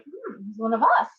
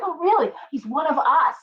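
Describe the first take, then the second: First: Level doubtful hmm; skeptical. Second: High pitched thrilled reaction; excited surprise. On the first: Second reaction, doubtful. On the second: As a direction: react as if delighted by the news. Friend's news, acted reaction. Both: Retold or imitated.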